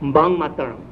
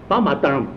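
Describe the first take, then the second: First: The first syllable ends in a nasal sound. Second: The first syllable ends in a stop sound. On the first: "所以嘎的得把吉贝鼻音应该是拿，就变成" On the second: "这个跟头一条规则一样的"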